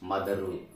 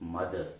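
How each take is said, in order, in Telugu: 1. చివర ఒక అదనపు 'u' అచ్చు చేర్చబడుతుంది. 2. ఈ పదం ఏ అదనపు అచ్చు లేకుండా ముగుస్తుంది. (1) "don't call మదరు" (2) "in English we do not pronounce like that"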